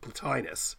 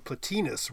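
First: The i vowel has its usual English sound. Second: The i vowel has its classical sound. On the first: The speaker calls it wrong. "Everyone pronounces it Plotinus" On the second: The speaker calls it right. "It should be Plotinus, really"

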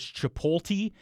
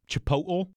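First: The L and T sounds are swapped. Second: The T is a glottal stop. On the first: "People tend to flip that L and the T around" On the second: "here we go with the glottal T"

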